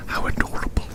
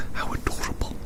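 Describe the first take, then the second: No difference in how they are said.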